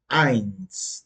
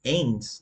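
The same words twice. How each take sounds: First: "eins" with the vowel gliding from A to I. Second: "eins" wrongly said with an E vowel, like "ens"; beginners' mispronunciation. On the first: Teacher modelling "eins" for beginners, EI pronounced as A-I. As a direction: say "eins" with an A-I sound, slowly. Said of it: "como se fosse um A e um I". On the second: Teacher imitating students' mistake, "eins" with an E sound. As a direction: say "eins" as a learner misreading the E literally. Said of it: "eles pensam, eins? Não". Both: Shown as a demonstration.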